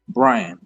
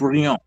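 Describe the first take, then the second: First: The name is said with an English pronunciation. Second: The name is said with a French pronunciation. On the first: This is how the name's owner says it. "That's the name my parents gave me" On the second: This is how a French reader would say it. "If a French person reading my name would say"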